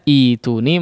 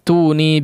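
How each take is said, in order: First: It starts with a long i vowel, no glottal stop. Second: It joins the previous word without an initial vowel. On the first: Reading starts fresh from this word. "apabila memulai kata ya dari kata ituni ya, ituni dibaca ituni" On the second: The word is read joined to the word before it. "Kalau ketika diwasal samawati tuni dibaca seperti biasanya"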